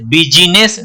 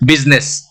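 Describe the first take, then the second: First: The middle i vowel is pronounced aloud. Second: The middle i vowel is left silent. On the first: The speaker calls it wrong. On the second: The speaker calls it right.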